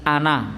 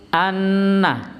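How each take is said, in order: First: The n sound is short and said quickly. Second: The n sound is doubled, held and nasal. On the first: The speaker calls it wrong. "tapi biasanya terlalu cepat" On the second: The speaker calls it right. "harusnya di syiddah, dengung, gunnah"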